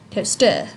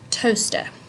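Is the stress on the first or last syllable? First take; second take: last; first. First: The stress is on the last syllable. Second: The stress is on the first syllable. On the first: The speaker calls it wrong. "If the stress were here at the end of the word, it would be toaster, but it's not" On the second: The speaker calls it right. "the emphasis or stress of the word toaster is on toe"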